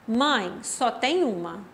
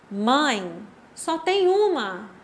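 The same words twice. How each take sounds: First: The sentence flows without a pause after the first word. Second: There is a short pause after the first word. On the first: There is only one mother in the world. "Aqui não teve pausa" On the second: The speaker tells the mother there is only one item. "olha a minha pausa"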